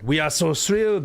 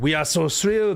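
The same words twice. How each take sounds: First: It is read in a put-on French accent. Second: It is read in a put-on French accent.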